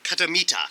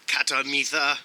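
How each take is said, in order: First: Katamita with a plain "t", no "th"; hard "t" in the last syllable of Katamita; silent H. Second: "th" in the last syllable of Katamitha; mispronounced with H. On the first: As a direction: say Katamita, ending in "-ta". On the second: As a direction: say Katamitha, sounding the H as "th". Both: Real, not acted. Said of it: "you don't pronounce the H".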